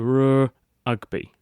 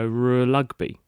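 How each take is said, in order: First: An R is said, then a break before ugby. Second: An R is followed by an L sound. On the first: "he could go r ugby" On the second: "he couldn't run the two together because he would go r lugby"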